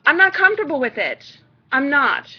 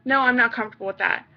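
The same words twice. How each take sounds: First: Louder, firmer refusal with punch on not; firm stressed no, leaning on not. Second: Flat refusal. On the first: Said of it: "gonna come off as a bitch". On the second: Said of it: "flat out fucking no". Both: Shown as a demonstration.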